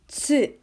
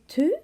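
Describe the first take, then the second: First: The syllable starts with a ts sound. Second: The syllable starts with a plain t sound. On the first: The speaker calls it right. "This is actually Tsu" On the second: The speaker calls it wrong. "do you think this is Tu? No"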